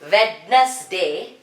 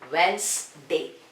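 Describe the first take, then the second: First: The d sound is pronounced in the word. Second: The d sound is left out of the word. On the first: The speaker calls it wrong. "This is not Wednesday" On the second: The speaker calls it right. "So here D is silent"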